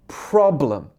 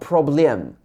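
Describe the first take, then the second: First: The stress is on the first syllable. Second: The stress is on the second syllable. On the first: The speaker calls it right. "in English, the stress is on the pro. So it should be problem" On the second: The speaker calls it wrong. "not problem"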